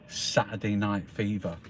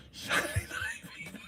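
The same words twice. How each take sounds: First: Said in the usual way. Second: Very high, soft, voiceless laughing squeak; laughing squeal. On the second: Real, not acted. Telling viewers what show was seen, laughing squeal. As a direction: squeak the title through a laugh. Repeats title, laughing in delight.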